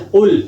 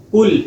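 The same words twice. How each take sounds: First: قل with a full heavy qaf. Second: قل with a light front k sound; wrong thin qaf. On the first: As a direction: say قل from the back of the throat. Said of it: "اپنے موٹے قاف کے ساتھ پڑھنا ہے". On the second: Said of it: "موٹے قاف کو بریک قاف پڑھ دیتے ہیں". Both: Shown as a demonstration.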